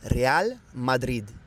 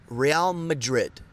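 First: The name is said with a native Spanish pronunciation. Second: The name is said with an American pronunciation. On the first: The speaker calls it right. "This is going to be Real Madrid" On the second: The speaker calls it wrong. "this is not Real Madrid"

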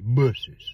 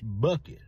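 First: The middle consonant is an s sound. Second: The middle consonant is a k sound. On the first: The speaker calls it right. "If an E comes after a C, it's an S sound" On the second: The speaker calls it wrong. "Said it's Bucky's"

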